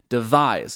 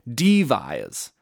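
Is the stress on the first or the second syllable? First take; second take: second; first. First: The stress falls on the second syllable. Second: The stress falls on the first syllable. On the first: The speaker calls it right. "devise is like unstressed first syllable and then stressed second syllable" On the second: The speaker calls it wrong. "you wouldn't say devise. That would sound really, really weird"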